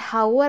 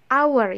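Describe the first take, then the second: First: The word begins with an audible h sound. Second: The word begins with a vowel, h silent. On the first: The speaker calls it wrong. "bukan hour ya" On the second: The speaker calls it right. "but hour"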